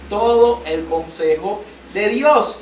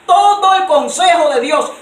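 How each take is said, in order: First: "todo el consejo de Dios" drawn out very slowly at normal pitch; slow settled restatement. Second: "todo el consejo de Dios" loud and high, slow, "todo" punched; loud emphatic phrase. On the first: A preacher closing a point to the church, very slow and measured. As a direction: let "todo el consejo de Dios" land slowly, each word spaced. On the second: A preacher proclaiming "todo el consejo de Dios" to the church, loud and high. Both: Shown as a demonstration.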